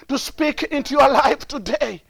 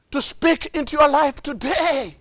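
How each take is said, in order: Both takes have the same delivery.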